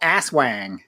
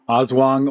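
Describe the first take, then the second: First: The name is said with an American twang. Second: The name is said without an American twang.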